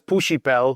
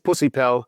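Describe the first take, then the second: First: The middle consonant is pronounced as sh. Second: The middle consonant is pronounced as s. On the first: The speaker calls it right. "say the the S not as an S but as a sh" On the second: The speaker calls it wrong. "if you don't say this"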